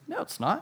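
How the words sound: It is said in an imitated British accent.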